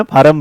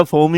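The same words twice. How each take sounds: First: फार्म in two syllables with an aa; mispronounced "form". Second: फॉर्म with a rounded "or" vowel; correct "form". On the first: Retold or imitated. Teacher imitating what students say, फार्म as "faa-ram". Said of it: "फॉर्म ही भरा जाता है". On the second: Shown as a demonstration. Teacher giving the English word, फॉर्म with "or". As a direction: say फॉर्म as one syllable. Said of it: "अंग्रेजी में तो बेटा".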